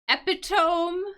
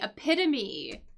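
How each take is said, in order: First: It is said with three syllables, silent final e. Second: It is said with four syllables, final e sounded. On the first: The speaker calls it wrong. "which looks like it's pronounced epitome, maybe? ... But it is not pronounced that way" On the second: The speaker calls it right. "this word is actually epitome"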